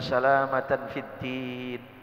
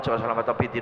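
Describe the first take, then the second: First: It is recited slowly and clearly. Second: It is recited quickly and hurriedly. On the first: The prayer is said with earnest attention. The speaker calls it right. "jangan terlalu cepat" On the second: The prayer is rushed through carelessly. The speaker calls it wrong. "orang doa dikebut"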